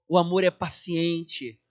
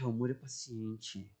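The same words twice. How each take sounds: First: It is said as a firm, earnest declaration. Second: It is said with a weary, reluctant sigh. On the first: The speaker wants to be patient. "mas declara, querendo ser paciente" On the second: The speaker does not feel patient yet. "algumas vezes você vai falar assim, ó, ai"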